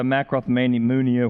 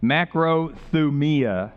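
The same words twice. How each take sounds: First: "macrothumia" fumbled into extra muddled syllables; garbled pronunciation. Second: "Macrothumia" said slowly and carefully, syllable by syllable; correct Greek pronunciation. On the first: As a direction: stumble through "macrothumia" like mak-roth-meni-MOON-ia. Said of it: "whatever you say it". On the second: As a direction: pronounce "Macrothumia" as MAK-ro-thu-MEE-a, drawn out. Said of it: "I'll say it correctly one time". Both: Shown as a demonstration.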